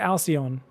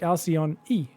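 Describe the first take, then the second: First: The name ends without an extra vowel. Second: The name ends with an added 'ee' vowel. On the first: "Because I say Alcyon" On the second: "he just adds a little E on the end"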